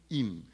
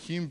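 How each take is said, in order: First: The word begins with no h sound. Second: The word begins with an audible h sound. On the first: The speaker calls it right. "en español la H es muda" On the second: The speaker calls it wrong. "No me digan hin porque en español la H es muda"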